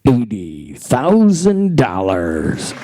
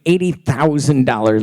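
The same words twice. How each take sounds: First: It is said slowly. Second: It is said at a normal pace.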